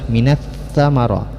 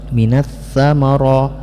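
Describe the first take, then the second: The two takes are said the same way.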